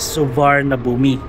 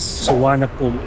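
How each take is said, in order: First: It is read letter by letter, as spelled. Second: It is said the way Thai speakers say it. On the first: This is how visitors read it from the letters. The speaker calls it wrong. "kung paano natin siya binasa by letters" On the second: This is how locals are used to hearing it. The speaker calls it right. "ang tamang pagbigkas nila ng airport na to"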